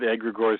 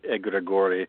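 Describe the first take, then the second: First: It is said with a plain English pronunciation. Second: It is said with a Greek-style pronunciation. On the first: This is the easiest way to say it. "we just go with egregores because that's the easiest" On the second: This follows the word's Greek origin. "it is Greek, so it should be more like egregore"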